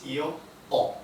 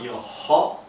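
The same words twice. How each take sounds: First: No h sound is heard before the vowel. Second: An h sound is pronounced before the vowel. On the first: The speaker calls it right. "we don't pronounce the H. It's silent" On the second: The speaker calls it wrong. "so it's not io ho"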